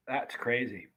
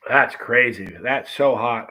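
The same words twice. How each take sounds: First: Quiet amazement. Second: "That's crazy" called out louder, burning; loud amazement. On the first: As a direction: murmur "that's crazy" under the breath, awed. Reacting to heat, quieter take. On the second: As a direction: exclaim "That's crazy" with a real burn. Reacting to heat, louder take. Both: Real, not acted.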